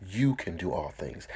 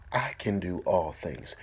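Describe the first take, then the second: First: You can do all things, You leaned on; stress on you. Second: I can do all things, the I leaned on; stress on I. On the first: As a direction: put weight on You. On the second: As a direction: put weight on I. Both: Shown as a demonstration. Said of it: "Take the I out and insert your name".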